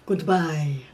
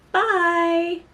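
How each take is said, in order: First: It is said in a creepy, Dracula-like voice. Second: It is said in her normal voice.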